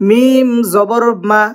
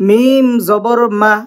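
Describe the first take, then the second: No difference in how they are said.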